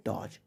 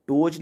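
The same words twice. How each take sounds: First: डॉज said 'dawj' with an open o; correct pronunciation. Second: डोज said 'dohj' with a closed o; common mispronunciation. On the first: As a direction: open up the vowel of डॉज to 'aw'. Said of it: "इसको पढ़ेंगे डॉज". (डॉज का सही उच्चारण, खुला 'ऑ') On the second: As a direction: round the vowel of डोज into a long 'oh'. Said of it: "डोज नहीं पढ़ेंगे". (डोज का गलत उच्चारण, बंद 'ओ') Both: Shown as a demonstration.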